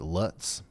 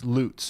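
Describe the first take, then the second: First: The vowel does not rhyme with boots. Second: The vowel rhymes with boots. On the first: The speaker calls it wrong. "Am I am I pronouncing that right?" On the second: The speaker calls it right. "It's Lutz, my bad. Corrected from now on"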